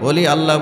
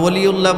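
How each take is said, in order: First: It is said as two separate words, oli Allah. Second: It is run together as one word, oliullah. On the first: The speaker calls it right. "অলি আল্লাহ বলি" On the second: The speaker calls it wrong. "আমরা অলিউল্লাহ বলি না"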